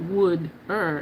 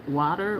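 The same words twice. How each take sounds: First: "wood-er" with a d sound for the t, first syllable like wood. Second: Said in the usual way. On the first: Retold or imitated. Viewer points out how she says water, "wood-er" with a d. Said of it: "You say water like wood-er". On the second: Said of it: "and not like water".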